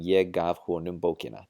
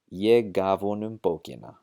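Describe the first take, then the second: First: The h is pronounced clearly and the words stay separate. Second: The h is dropped and the words run together. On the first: "pronouncing it clearly" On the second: "we're going to drop the hao sound out of the word huonum"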